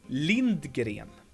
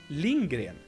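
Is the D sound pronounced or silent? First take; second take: pronounced; silent. First: The D sound is clearly pronounced. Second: The D sound is silent. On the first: "If you would pronounce her name with a, like a good diction, you might say" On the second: "the D is silent ... So I pronounce her name"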